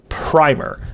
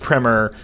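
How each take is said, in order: First: It is said like paint primer. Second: It is said like the film title. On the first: The speaker calls it wrong. "was pronounced primer, like with paint" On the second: The speaker calls it right. "apparently it's pronounced primer, which is how the movie Primer is pronounced"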